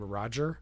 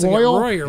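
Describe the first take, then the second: First: The middle consonant is a soft g sound. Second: The middle consonant is a y sound. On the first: "named Roger" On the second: "they kept pronouncing it Royer"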